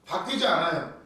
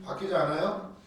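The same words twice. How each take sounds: First: 바뀌지 않아요 said as a flat statement, falling at the end; firm statement. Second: 바뀌지 않아요 turned into a question, rising on 않아요; questioning echo. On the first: Preacher to congregation, declaring God never changes, falling finality. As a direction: state 바뀌지 않아요 as settled fact, voice dropping on 않아요. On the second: Preacher to congregation, questioning his own claim, rising doubt. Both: Shown as a demonstration.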